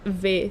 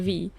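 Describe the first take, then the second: First: It sounds like the first syllable of Veronica. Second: It sounds like the alphabet letter name. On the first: It is the nickname cut from the full name. The speaker calls it right. "you cut it off and V stays" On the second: It is the name of the letter. The speaker calls it wrong. "V is the letter. The letter V"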